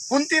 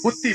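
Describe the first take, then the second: First: The first syllable has a nasal sound. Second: The first syllable has no nasal sound. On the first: It is the woman's real name. The speaker calls it right. "कुंती नाव होतं" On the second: The name turns into an insult. The speaker calls it wrong. "अनुस्वार न उच्चारता आवाज दिला"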